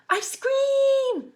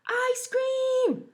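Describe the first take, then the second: First: Very high, even louder shout; louder yell. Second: Very high, loud shout; yelling. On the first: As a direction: belt it out. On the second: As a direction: call it out across the playground. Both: Acted. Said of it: "yelled Waffle".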